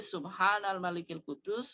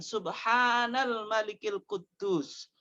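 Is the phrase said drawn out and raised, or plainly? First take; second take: plain; drawn out. First: It is said at normal length and level. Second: It is drawn out and raised in voice.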